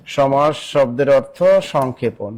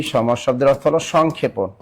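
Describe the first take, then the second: First: Slow, measured repeat for note-takers; slow dictation. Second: Said in the usual way. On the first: Real, not acted. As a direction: spell it out word by word, unhurried. Teacher repeats answer slowly for students. (ধীরে ধীরে, টেনে টেনে বলা)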